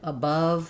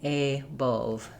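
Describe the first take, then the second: First: The first vowel is a short, reduced uh sound. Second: The first vowel is a clear, open ah sound. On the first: The speaker calls it right. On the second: The speaker calls it wrong.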